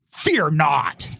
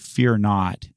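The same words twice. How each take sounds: First: It is said in a harsh, scolding tone. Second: It is said in a gentle, reassuring tone.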